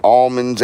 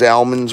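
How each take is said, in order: First: Almonds said with a broad "ahl" vowel, no l-colour; almonds as "ahlmonds". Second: Almonds said with a flat "a" as in cat; almonds as "ahmonds". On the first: Trying one almond pronunciation for viewers, Almonds as ahl-monds. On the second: Offering viewers the other almond pronunciation, almonds as am-onds. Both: Shown as a demonstration. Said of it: "However you guys wanna say it".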